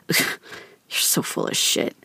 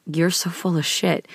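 First: Slow, breathy hushed scoff; dad scoffing at his daughter's compliment, hushed and slow. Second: Scoffing. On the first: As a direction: drop it to a scornful near-whisper. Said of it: "It was". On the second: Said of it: "scoffed at me and was like". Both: Retold or imitated.

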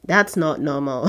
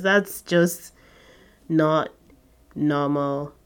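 First: Said in the usual way. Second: Long pauses between "That's just", "not" and "normal"; slow emphatic repeat. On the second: Shown as a demonstration.

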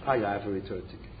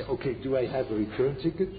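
First: Quiet, softer flat statement falling at the end; no rise on ticket, closes downward; answered as a statement. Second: Hopeful question rising at the end; rising, questioning tone on ticket; imagined listener's question. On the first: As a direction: state it as settled fact, a bit softer. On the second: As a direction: ask it like a student wanting reassurance. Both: Retold or imitated. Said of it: "Now you say".

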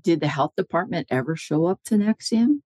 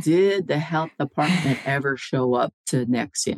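First: Higher-pitched question with a rising end; retold cross-examination. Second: Insistent repeated question. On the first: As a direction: put the question to a witness, ending upward. First asking, as lawyer questioning witness. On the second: Retold or imitated. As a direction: press the witness word by word. Repeats the unanswered question slowly.

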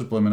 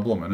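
First: "Blimmin'" with a short I. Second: "blummin'" with a rounded U or OO; blummin', other vowel. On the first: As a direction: say "Blimmin'" with the vowel of "him". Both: Shown as a demonstration. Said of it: "We found out whether [name] says".

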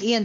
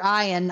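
First: "Ian" pronounced EE-an. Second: "Ian" pronounced EYE-an. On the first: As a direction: start "Ian" with an ee sound. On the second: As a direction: start "Ian" with a long i, like eye. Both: Real, not acted. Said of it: "I'm sorry".

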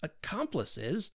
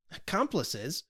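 First: Slow, drawn-out and offended; McVey bristling at the word, slow and offended; mild anger. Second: A startled echo of the word; McVey echoing the accusation, surprised; surprised exclamation. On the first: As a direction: stretch the word out, a touch of anger. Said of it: "a shade of anger crossed his brow". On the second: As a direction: throw it back in disbelief. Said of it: "exclaimed McVey". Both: Acted.

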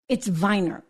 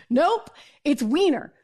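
First: Weiner said as VYE-ner, German V and long I; German-style name. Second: Weiner said as WEE-ner, English W and long E; producer's correction. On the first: Correcting her producer: Weiner as German VYE-ner. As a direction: say Weiner like VINE-er with a V. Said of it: "I speak German". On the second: Producer insists to host: Weiner as WEE-ner. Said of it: "And he's like". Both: Retold or imitated.

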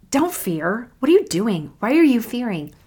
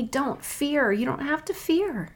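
First: Imitating an exasperated telling-off, pitch lifted; mock reproach, pressing each question; disappointed scolding. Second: Softer, higher, tender voice; gentle reassurance. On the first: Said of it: "a guy who's really disappointed". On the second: Acted. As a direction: reassure them softly, with pitch lifted. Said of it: "He does not talk to me like that".

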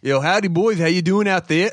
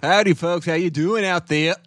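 First: Higher, mild Boston and English lilt; Boston-English mix. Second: Lightly voiced Boston-English mix, higher; a hint of Boston with a bit of English; a little Boston. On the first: Acted. Asked to say it again, he repeats the Boston-English greeting. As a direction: greet the boys in a light Boston-English blend. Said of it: "a little Boston, a little bit of English". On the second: Twin greets listeners in a put-on Boston-English voice. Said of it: "That's not what his voice sounds like".

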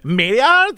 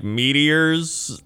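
First: Put-on airheaded rising Valley Girl question. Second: Put-on Valley Girl voice. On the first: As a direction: ask it like a clueless Valley Girl. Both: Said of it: "in, like, a Valley Girl voice".

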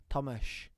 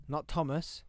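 First: Tomasz ending in a soft sh; Polish pronunciation. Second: Said in the usual way. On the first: Shown as a demonstration. Explaining a workmate's name, "Tomasz" said with final sh. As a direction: say "Tomasz" as TOM-ash. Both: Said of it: "his name's Tomasz".

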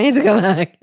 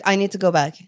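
First: Louder, laughing through the repeat; louder second take with a laugh breaking in. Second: Said in the usual way. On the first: Retold or imitated. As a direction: laugh at your own urgency.

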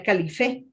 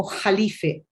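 First: "Calife" with a hard K sound and stress on the E; Spanish pronunciation. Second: "Jalife" with a throaty Spanish J sound at the start; Arabic pronunciation. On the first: Explaining her surname, the Spanish way with a hard K. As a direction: say "Calife" the Spanish way, crisp K at the start. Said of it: "en español se pronunciaría". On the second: Explaining her Lebanese surname, the Arabic way with a throaty J. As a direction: say "Jalife" the Arabic way, opening on a harsh J. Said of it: "en árabe se pronuncia como". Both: Shown as a demonstration.

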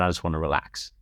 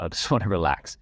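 First: Said in the usual way. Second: Laughs mid-line, half amused; laughing. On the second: Real, not acted. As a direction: break into a chuckle on the repeat.

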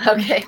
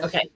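First: Laughing. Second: Said in the usual way. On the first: Real, not acted. Laughs at the long question.

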